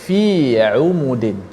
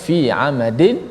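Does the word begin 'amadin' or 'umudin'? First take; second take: umudin; amadin. First: The word is said with u vowels. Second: The word is said with a vowels. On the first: This is another reciter's reading of the verse. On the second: This is the usual reading of the verse.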